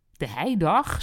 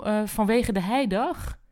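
First: Genuinely surprised echo. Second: Said in the usual way. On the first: A narrator's reading. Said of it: "oprecht verbaasd".

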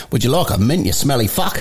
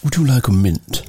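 First: Low, blunt Australian offer. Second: Low, politely English offer. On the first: Australian honestly offering a smelly person a mint, blunt Australian accent. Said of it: "At least in Australia, they're a little bit more honest". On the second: Briton politely offering someone a mint, polite English accent. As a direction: offer it with careful English manners. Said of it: "we're all trying to be English". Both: Acted.

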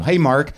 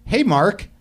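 First: Said in the usual way. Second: "Hey, Mark" pitched high with a rise at the end; perky rising greeting. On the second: Shown as a demonstration. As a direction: lift "Hey, Mark" way up like a question. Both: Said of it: "I wanna say it like that".

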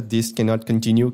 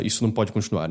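First: Slow, lightly robotic quote; a hint of a robot voice; half robot voice. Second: Said in the usual way. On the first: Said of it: "falando com uma voz robótica". (meia voz robótica) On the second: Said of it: "que é".

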